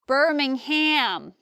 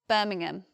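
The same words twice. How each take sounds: First: It is said with an American accent. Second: It is said with a London accent. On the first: "many Americans say Birmingham" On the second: "I'm from the south of England and from London, and we just say Birmingham"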